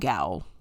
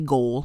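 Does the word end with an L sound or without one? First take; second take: without; L sound. First: The word ends without an L sound. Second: The word ends with an L sound. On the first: The speaker calls it right. "This is the last time I'm saying it" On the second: The speaker calls it wrong. "I want to say goal because my brain keeps trying to flip the O and the A"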